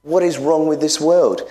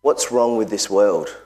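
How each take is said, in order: First: Higher, pressing question; preaching climax. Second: Said in the usual way. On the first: Real, not acted. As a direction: demand it of the congregation.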